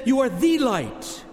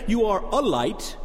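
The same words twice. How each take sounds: First: "the" slow and leaned on, You are "the" light; stress on THE. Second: Weight on "a", You are "a" light, the wrong reading; stress on a. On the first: Preacher correcting the misquote with Jesus's words, stress on "the". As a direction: hit "the" hard, the one and only light. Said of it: "He says". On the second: Preacher showing the congregation the misquote, stress on "a". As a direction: lean on the little word "a" in You are "a" light. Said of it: "Notice he did not say". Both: Shown as a demonstration.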